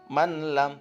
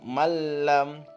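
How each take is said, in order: First: The n is sounded clearly before the l. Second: The n merges into a doubled l sound. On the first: The speaker calls it wrong. "jangan dibaca man lam" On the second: The speaker calls it right. "tapi malam"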